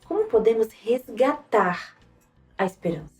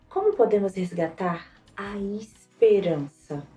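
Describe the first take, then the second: First: The word "resgatar" carries the main emphasis. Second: The word "esperança" carries the main emphasis. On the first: "e depois em resgatar" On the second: "depois na própria esperança"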